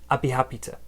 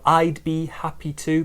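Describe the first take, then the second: First: The word 'to' is said weak and reduced. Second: The word 'to' is said in full.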